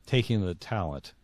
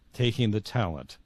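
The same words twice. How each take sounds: The two takes are said the same way.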